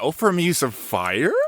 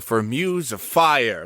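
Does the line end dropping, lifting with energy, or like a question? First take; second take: question; lifting. First: It rises at the end like a question. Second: The energy lifts and stays up at the end.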